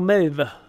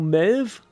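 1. Der Name endet auf einen Vokal, also zwei Silben. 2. Der Name endet auf einen Konsonanten, also eine Silbe. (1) "Melve klingt cooler" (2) "Einfach nur Melv"

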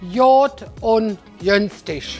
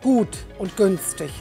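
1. Gesprochen mit Kölner Akzent, das G klingt wie J. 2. Gesprochen mit niederrheinischem Akzent. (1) "Der Kölner oder der Rheinländer, der würde alles mit J sagen" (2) "Sagt man natürlich nur am Niederrhein"

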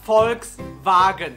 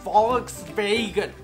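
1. Er wird mit deutschem Akzent ausgesprochen. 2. Er wird mit englischem Akzent ausgesprochen. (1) "正确的说法应该就是 Volkswagen" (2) "英语里面他们会说 Volkswagen"

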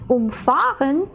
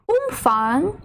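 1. Наголос після префікса um. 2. Наголос на префіксі um. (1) "якщо ми переплутаємо наголос і скажемо в цьому реченні «umfahren»" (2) "Тут ми наголошуємо префікс"

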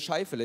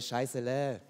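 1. Der Name wird mit einem f-Laut gesprochen. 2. Der Name wird mit einem s-Laut gesprochen. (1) "hier Scheifele" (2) "die China-Frau nennt mich immer Scheißele"

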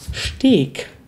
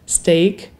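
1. Das Wort wird mit deutschen Lauten ausgesprochen. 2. Das Wort wird mit englischen Lauten ausgesprochen. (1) "aber Leute sie wie deutsch aussprechen ... Manche Leute sagen das" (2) "englische Worte, die im Deutschen eigentlich auch englisch ausgesprochen werden"

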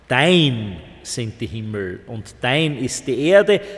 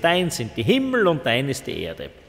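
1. Das erste Wort wird sehr langsam gedehnt. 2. Das erste Wort wird in normalem Tempo gesprochen. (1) "da ist die Betonung ganz anders" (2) "Das wäre eigentlich eine ganz normale Art, es zu lesen"

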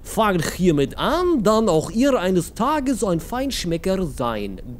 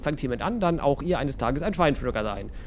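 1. Er wird mit einem aufgesetzten russischen Akzent gelesen. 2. Er wird mit einem normalen deutschen Akzent gelesen.

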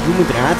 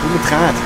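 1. Die Konsonanten werden weich ausgesprochen. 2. Die Konsonanten werden härter ausgesprochen. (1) "viel zu weich aus" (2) "so ein bisschen härter"

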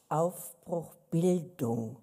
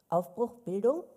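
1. Die Stimme fällt am Ende wie bei einer Aussage. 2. Die Stimme steigt am Ende wie bei einer Frage.

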